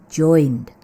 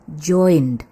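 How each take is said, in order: Both takes have the same delivery.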